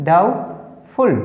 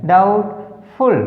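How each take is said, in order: No difference in how they are said.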